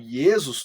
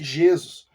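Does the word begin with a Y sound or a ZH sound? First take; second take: Y sound; ZH sound. First: The word begins with a y sound. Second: The word begins with a zh sound. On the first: This is the older form of the name. "se eu falo ye" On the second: This is the faster, palatalized later form. "je é muito mais rápido"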